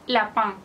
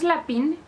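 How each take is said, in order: First: The second vowel is a nasal vowel. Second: The second vowel is a plain oral i. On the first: The speaker calls it right. "vean cómo lo digo, es la pan" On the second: The speaker calls it wrong. "no es la pin"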